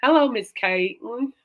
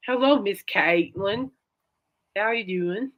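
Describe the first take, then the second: First: Slow Texan Hello, Miss Caitlin with a rising Hello; lightly mimicking a Texas professor's greeting; a touch of a Texas drawl, slow and sing-song. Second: Slow, drawn-out Texan greeting with a rising Hello; lightly imitating a Texan professor; a hint of a Texas drawl, slow and friendly. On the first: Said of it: "I make it sound like Forrest Gump". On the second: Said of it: "That sounds like Forrest Gump".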